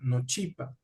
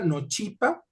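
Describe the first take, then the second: First: The first vowel is short and nasal. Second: The first vowel is open and not nasal. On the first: The speaker calls it right. "La nasalidad de una vocal, una vocal corta" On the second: The speaker calls it wrong. "si esto lo pronunciáramos como en español, se pronunciaría nochipa, un sonido más abierto"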